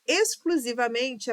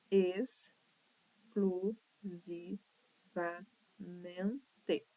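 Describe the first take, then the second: First: Said in the usual way. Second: Exclusivamente sílaba por sílaba. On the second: Shown as a demonstration. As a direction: split exclusivamente into slow, separate syllables. (exclusivamente silabado, bem pausado) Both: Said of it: "apresenta seis sílabas".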